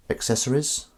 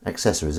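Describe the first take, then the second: First: "Accessories" with a rising, questioning tune; "Accessories" as a soft, doubtful question; questioning check. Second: "Accessories" lower, with a falling tune; "Accessories" as a low, soft statement; settled answer. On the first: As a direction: query the word "Accessories", voice lifting at the end. Checking how he pronounced the word. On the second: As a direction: confirm "Accessories" quietly, pitch dropping at the end. Answering his own check on word. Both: Real, not acted.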